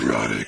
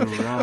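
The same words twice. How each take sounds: First: It is said in a robotic Transformer voice. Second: It is said in a sultry, suggestive voice.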